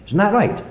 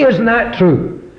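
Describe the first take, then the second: First: Said in the usual way. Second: High, loud, slow question for the congregation to repeat; slow call and response. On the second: Shown as a demonstration. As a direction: draw it out for them to answer.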